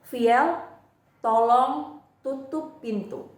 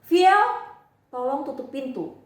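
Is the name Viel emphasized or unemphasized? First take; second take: unemphasized; emphasized. First: The name Viel is said without special emphasis. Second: The name Viel is said with strong emphasis.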